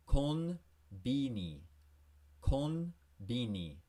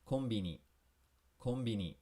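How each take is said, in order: First: Konbini stretched out slowly, kon-bi-ni. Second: Konbini quick and natural; natural-speed Konbini; normal speed. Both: Shown as a demonstration. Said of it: "At normal speed".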